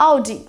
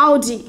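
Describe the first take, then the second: Both takes have the same delivery.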